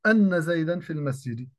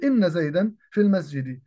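First: أن said with open hamza, "anna zaydan"; wrong fatha on anna. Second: إن said with broken hamza, "inna zaydan"; correct kasra on inna. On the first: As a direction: show the error by reading أن as "anna". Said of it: "فلذلك لا أقول". (أن بفتح الهمزة خطأً) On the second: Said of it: "وإنما أقول". (إن بكسر الهمزة صحيحة) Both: Shown as a demonstration.

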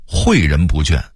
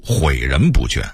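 First: Said in the usual way. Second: 诲人不倦 as 毁人不倦; dipping huǐ opening 毁人不倦; Beijing reading. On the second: Shown as a demonstration. Narrator contrasting word lists, Beijing reading. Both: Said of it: "北京话读毁人不倦".

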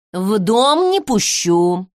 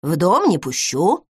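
First: "не" hit hard in "В дом не пущу", slow and curt; stress on НЕ. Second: "дом" lifted and stressed in "В дом не пущу", rising. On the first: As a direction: cut him off, leaning on "не". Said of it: "отрезала Егоровна". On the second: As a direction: lean on "дом", not on the refusal. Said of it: "Я тебе про дом сказала". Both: Acted.

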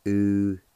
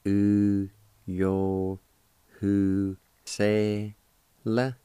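First: Said in the usual way. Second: "U, yo, hu, se, la" with each syllable separated; "U, yo, hu, se, la" spoken slowly with pauses between syllables. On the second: Shown as a demonstration. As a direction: break Uyohusela into its syllables: "U, yo, hu, se, la". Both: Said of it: "is pronounced like this".

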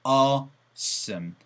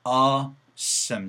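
First: "awesome" opened with "ow-oo"; mistaken AW diphthong. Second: "awesome" starting with a long open "aw"; pure AW vowel. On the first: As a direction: say "awesome" wrongly as "ah-oo-some". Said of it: "awesome이 아니고 에이더블유 사운드는". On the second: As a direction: hold "aw" without gliding, then "some". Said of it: "어우가 아니고 그냥". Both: Shown as a demonstration.

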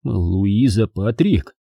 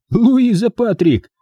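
First: Slow, stunned question at normal pitch; astonished echo. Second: Slow, high-pitched taunt; taunting presentation. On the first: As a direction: repeat the name slowly in disbelief. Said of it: "раскрыть рот от удивления". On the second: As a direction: draw the name out high, challenging her. Mike mockingly presents her to her. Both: A narrator's reading.

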